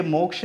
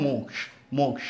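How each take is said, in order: First: मोक्ष with a छ-like ending; wrong pronunciation. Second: मोक्ष ending in क joined to श; correct pronunciation. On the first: Teacher rejects the usual reading, mispronounced. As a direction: say मोक्ष the common छ way. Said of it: "ये मोक्ष नहीं है". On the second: Teacher gives the right reading instead, correct pronunciation. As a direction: model मोक्ष short and soft, k-sh ending. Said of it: "क और श के संयुक्त". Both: Shown as a demonstration.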